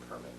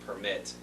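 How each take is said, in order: First: The stress is on the first syllable. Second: The stress is on the second syllable. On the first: It is the noun. The speaker calls it right. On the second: It sounds like the verb. The speaker calls it wrong.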